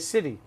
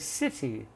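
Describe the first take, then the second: First: The middle t is a soft d-like flap. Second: The middle t is a crisp t sound. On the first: "we say city" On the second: "that's British"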